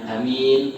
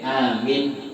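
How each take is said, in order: First: The first vowel is short, the second long. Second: The vowel after the m is short. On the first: A person who is trusted. "Kalau nggak panjang" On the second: A request to grant safety. "Kalau mimnya pendek"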